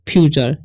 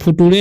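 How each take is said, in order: First: The middle consonant is a 'ch' sound. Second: The middle consonant is a plain 't' sound. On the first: The speaker calls it right. "इसे पढ़ेंगे हम लोग फ्यूचर" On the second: The speaker calls it wrong. "नहीं पढ़ना"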